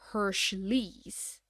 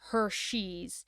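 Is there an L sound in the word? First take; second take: yes; no. First: The word is said with an L sound. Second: The word is said without an L sound. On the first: The speaker calls it wrong. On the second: The speaker calls it right.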